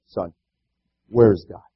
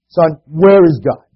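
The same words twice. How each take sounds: First: It is asked in a mild, plain tone. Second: It is asked in a firmer tone.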